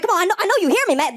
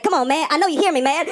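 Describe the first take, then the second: First: High, agitated insistent plea; getting upset. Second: Slightly raised, pressing street plea; insistent appeal. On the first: Ignored man on train to rider, growing upset. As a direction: press harder, pitched up and exasperated. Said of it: "he starts getting upset". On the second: Man on train to silent rider, insistent appeal. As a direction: nag someone who is ignoring you. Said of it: "he's talking, he's like". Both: Acted.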